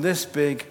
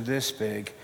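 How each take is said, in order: First: "this big" said as the big one; large size. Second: "this big" dropped low and soft; "this big" made small and quiet; shrunken size. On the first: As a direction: give "this big" the larger sound. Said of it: "go from this big down to". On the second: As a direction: shrink "this big" down in pitch and volume. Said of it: "down to this big". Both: Shown as a demonstration.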